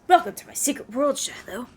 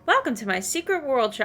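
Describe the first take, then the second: First: It is said in a put-on Spy Master voice. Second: It is said in a plain, normal voice.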